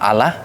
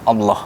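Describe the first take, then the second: First: It is pronounced the everyday, non-Arabic way. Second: It is pronounced the Arabic religious way. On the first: The speaker calls it wrong. "Kalau sebelumnya menyebutnya Allah" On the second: The speaker calls it right. "kali ini dalam pronunciation dalam Islam Allah"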